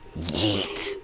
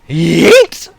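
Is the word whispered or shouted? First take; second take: whispered; shouted. First: The word is whispered quietly. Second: The word is shouted loudly.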